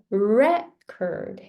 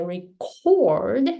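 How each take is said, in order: First: "record" as noun, REC punched, "ord" dropping; stress on REC. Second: "record" as verb, CORD punched and long; stress on CORD. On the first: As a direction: stress the first syllable of "record". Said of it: "that is a noun". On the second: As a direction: stress the second syllable of "record". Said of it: "that becomes a verb". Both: Shown as a demonstration.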